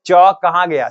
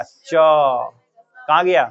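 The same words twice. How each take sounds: First: Said in the usual way. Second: च कहाँ गया said very slowly, every sound stretched; drawn-out repeat. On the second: Shown as a demonstration. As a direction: stretch each syllable of च कहाँ गया to show the tongue. (धीरे-धीरे खींचकर)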